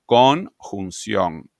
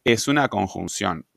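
First: "Conjunción" very slow, split as Con - junción; "Conjunción" broken apart. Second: Said in the usual way. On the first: Shown as a demonstration. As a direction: draw out "Conjunción" in separate parts to show how it is built. Separa la palabra para explicarla. ("Conjunción" muy lenta, separada en partes)

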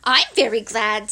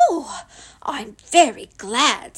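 First: Mildly happy Piglet; a touch of eager pleasure. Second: Mildly happy Pooh; a touch of pleasure. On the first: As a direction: say it gladly, a little louder. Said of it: "said Piglet happily". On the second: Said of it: "said Pooh happily". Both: A narrator's reading.

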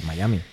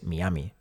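First: Miami said "mai-A-mi"; real local pronunciation. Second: Miami as written, "mi-A-mi"; Spanish reading of Miami with "mi" first; read as spelt. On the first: Host gives the city's real name, Miami as "mai-ami". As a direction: open Miami with an English "mai". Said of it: "es la pronunciación del nombre de la ciudad real". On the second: Host shows how readers said it, Miami as "mi-ami". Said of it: "leído es Miami". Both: Shown as a demonstration.

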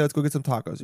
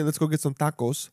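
First: Said in the usual way. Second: Tacos with Spanish vowels and accent; put-on Spanish pronunciation. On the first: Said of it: "I'm gonna say". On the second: Shown as a demonstration. What he won't say to friends, tacos in Spanish pronunciation. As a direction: make tacos sound deliberately Spanish. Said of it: "I'm not gonna say".

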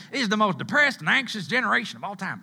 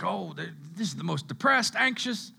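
First: Put-on Southern accent. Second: Put-on slight Southern accent for the critics. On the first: Preacher mimicking critics of our generation, hammed-up Southern accent. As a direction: ham up the Southern twang as a mock complaint. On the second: Preacher imitating people who dog our generation, light Southern accent. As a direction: let a little Southern twang slip in. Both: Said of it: "I get a Southern accent when I talk like that".

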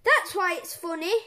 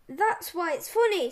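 First: Loud gleeful explanation; cheeky reply. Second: Loud, snarled retort. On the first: Acted. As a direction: defend the joke with glee. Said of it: "said George". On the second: A narrator's reading. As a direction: throw it back at the boys with a touch of a snarl.

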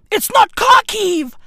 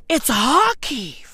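First: "Kharkiv" higher and louder, hard K sound. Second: "Kharkiv" slowly as harkiv; silent K Kharkiv. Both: Shown as a demonstration.

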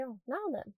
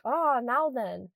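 First: Quiet, casual northern English greeting. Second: Drawn-out northern English "now then", falling at the end; northern phone greeting. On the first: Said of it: "It's how you greet people". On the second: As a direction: greet granddad slowly in a northern English accent. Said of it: "whenever I'd pick up the phone to my granddad". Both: Shown as a demonstration.

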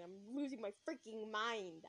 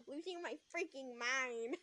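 First: Slow, drawn-out complaint; slow exasperation. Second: Put-on slow, childish whine; childlike voice. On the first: Real, not acted. Narrator commenting on her state, slow exasperation. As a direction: draw out each word, losing patience. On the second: Shown as a demonstration. Narrator mocking how she sounded, childlike voice. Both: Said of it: "I sound like a child".

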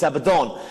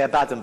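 First: "Abaddon" with a full final syllable, a-ba-DON; corrected stress. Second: "Abaddon" stressed on the second syllable, a-BAD-un; mistaken stress. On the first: Preacher correcting himself, "Abaddon" said a-ba-DON. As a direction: say "Abaddon" as a-ba-DON, weight on the end. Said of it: "but it's Abaddon". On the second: Preacher showing his habitual slip, "Abaddon" said a-BAD-un. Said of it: "I always say Abaddon". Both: Shown as a demonstration.

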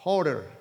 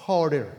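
First: Tentative "Hoarder", Spanish-sounding, r tapped in the middle; first try at an English word. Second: "Hoarder" retried with a d sound, "oder"; second take of "Hoarder", d in the middle; corrected try at the word. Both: Shown as a demonstration. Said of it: "A ver si lo pronuncio bien".

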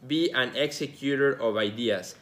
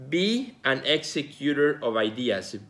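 The two takes are said the same way.

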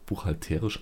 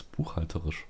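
First: Buchhalterisch with a long stressed TE; buchhalterisch, weight shifted onto the "te". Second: Said in the usual way. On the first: Shown as a demonstration. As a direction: say buchhalterisch as "buch-hal-TEE-risch". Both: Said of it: "anders geschrieben als buchhalterisch".

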